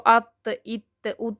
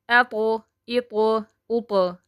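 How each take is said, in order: First: Each final consonant stops flat without echo. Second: Each final consonant bounces with a short echo. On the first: The speaker calls it wrong. "ऐसे नहीं पढ़ना" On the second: The speaker calls it right. "झटका दे के पढ़ना है"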